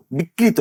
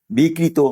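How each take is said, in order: First: বিকৃত said as bikrito, with a final o sound; wrong pronunciation. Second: বিকৃত said as bikrit, with no final vowel; correct pronunciation. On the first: Cleric showing the mistaken way to say বিকৃত, ending in o. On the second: Cleric giving the right way to say বিকৃত, no final vowel. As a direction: say বিকৃত cleanly, cutting off after the t. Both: Shown as a demonstration. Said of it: "আসলে হবে বিকৃত".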